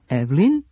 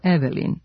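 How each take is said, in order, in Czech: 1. Prostřední samohláska e se vynechává. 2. Prostřední samohláska e se vyslovuje.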